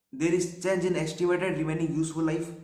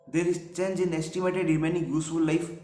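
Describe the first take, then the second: No difference in how they are said.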